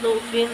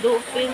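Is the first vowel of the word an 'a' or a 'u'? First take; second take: u; u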